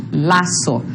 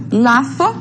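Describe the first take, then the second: First: Lazo with a plain s, laso; seseo s. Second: Lazo with a lisped th, latho; tongue between the teeth on the z of Lazo; interdental z. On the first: Teacher models seseo for the class. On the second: Teacher models the interdental z for the class. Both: Shown as a demonstration. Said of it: "identificar a forma de pronúncia".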